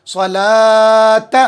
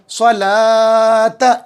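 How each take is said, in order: First: स्वलात drawn out, long ला; slow Quranic reading. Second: स्वलात chanted slowly, long ला; slow recitation tone. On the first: Teacher models स्वलात to class, slow. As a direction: read स्वलात slowly, holding the vowel. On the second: Teacher recites स्वलात for students, chanted slowly. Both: Shown as a demonstration. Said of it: "इस तरीके से".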